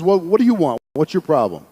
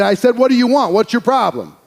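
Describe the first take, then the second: First: Said in the usual way. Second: Retold demand, higher and more forceful; teacher insisting, pitch raised on "I said"; insistent repeat. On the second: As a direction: press for an answer from a silent student. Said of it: "he didn't respond".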